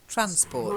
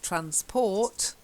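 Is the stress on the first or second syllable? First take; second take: first; second. First: The stress is on the first syllable. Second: The stress is on the second syllable. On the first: The speaker calls it right. "It's just transport. The stress is on the first syllable" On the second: The speaker calls it wrong. "not stress transport"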